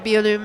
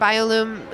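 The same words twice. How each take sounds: First: The name is said with a French pronunciation. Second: The name is said with an English pronunciation. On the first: "or Bioloom in French" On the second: "I mentioned Bioloom"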